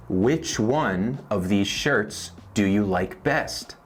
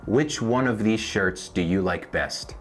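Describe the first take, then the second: First: Slow, word by word; slow teaching read. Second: Said in the usual way. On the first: Shown as a demonstration. Teacher to Spanish learners, slow model question. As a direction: spell the question out slowly. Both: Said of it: "Por ejemplo".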